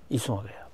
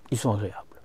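Both takes have the same delivery.

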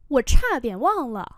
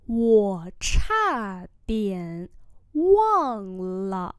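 First: Said in the usual way. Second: Very slow, tone by tone; slow demonstration for learners; slow model pronunciation. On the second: Shown as a demonstration. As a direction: stretch each word with gaps. Teacher repeats phrase slowly.

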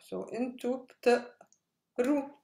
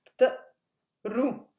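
First: Said in the usual way. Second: بتقروا louder, with a stop after بت; syllables marked. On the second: Shown as a demonstration. Teacher stressing the break in بتقروا for students. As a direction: split بتقروا as بت then قروا. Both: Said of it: "you're stopping here".

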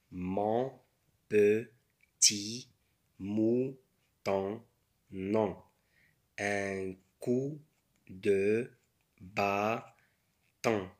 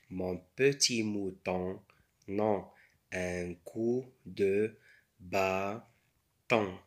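First: Slow, word by word with pauses; syllable by syllable. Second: Said in the usual way. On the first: Shown as a demonstration. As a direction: sound out each word for beginners. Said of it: "بالمقاطع". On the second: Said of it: "بالأصوات".

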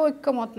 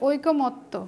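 First: ঐক্যমত said as oik-ko-mot, k doubled; mistaken doubled k. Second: ঐকমত্য said slowly as oi-ko-mot-to; one k and a long t in ঐকমত্য; single k, doubled t. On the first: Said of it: "তখন কিন্তু এটা ঐক্যমত না". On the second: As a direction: teach ঐকমত্য slowly as "oiko-motto". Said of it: "এটা হচ্ছে ঐকমত্য". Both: Shown as a demonstration.

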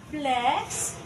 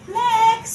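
First: Said in the usual way. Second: Flex punched out higher and much louder; Flex, belted like a show-off cheer; loud Flex call. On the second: Shown as a demonstration. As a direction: shout Flex as you strike the pose. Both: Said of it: "Mag-flex na tayo".

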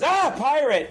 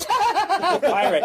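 First: High-pitched startled cry; hammed-up alarm; mock scared. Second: High-pitched, laughing through the word; hammed-up giggly glee; mock delighted laughing. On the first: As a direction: yelp in pretend fright at a pirate. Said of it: "the other being scared". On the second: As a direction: crack up at the sight of a pirate. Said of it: "'cause pirates make him laugh".

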